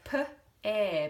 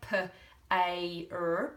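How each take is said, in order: First: It is sounded out as two separate sounds. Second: It is sounded out as three separate sounds. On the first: The speaker calls it right. "We say p, air, because the R lassos the A I" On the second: The speaker calls it wrong. "We don't say p, a, r, pair, like we would if it was pain"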